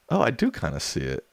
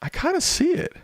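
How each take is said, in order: First: Said in the usual way. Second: Squeaky falsetto, far above own voice; extreme falsetto. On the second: Pretend. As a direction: squeal it like a cartoon.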